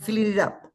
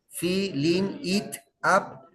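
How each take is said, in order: First: The words are linked into one smooth chunk. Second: Each word is said separately, without linking. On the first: The speaker calls it right. "So you link words" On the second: The speaker calls it wrong. "no por partes. Nobody speaks like this"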